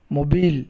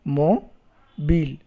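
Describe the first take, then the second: First: Said in the usual way. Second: "Mobile" slowly split mo, pause, bile; syllable by syllable. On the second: Shown as a demonstration. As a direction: count out both syllables of "Mobile". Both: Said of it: "How many syllables?".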